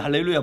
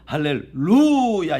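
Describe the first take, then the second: First: The stress falls on the first part. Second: The stress falls on a later part. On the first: The speaker calls it wrong. "할레 액센트가 있는 것이 아니고요" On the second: The speaker calls it right. "여기에 액센트가 있습니다"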